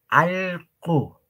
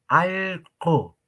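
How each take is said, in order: The two takes are said the same way.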